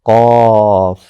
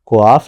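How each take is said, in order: First: The first consonant has no w glide after it. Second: The first consonant is followed by a w glide. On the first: The speaker calls it right. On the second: The speaker calls it wrong.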